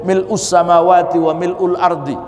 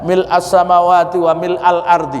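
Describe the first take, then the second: First: The word mil' ends with a u vowel. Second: The word mil' ends with an a vowel. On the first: "boleh mil'u" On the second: "Boleh mil a"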